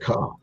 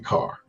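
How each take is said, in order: First: The word is said in a Boston accent. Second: The word is said in a general accent. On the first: "like in Boston, when they say the word car ... they say car with a K" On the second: "they don't say car"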